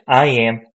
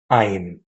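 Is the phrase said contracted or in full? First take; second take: full; contracted. First: Both words are said in full. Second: The two words are shortened into one syllable.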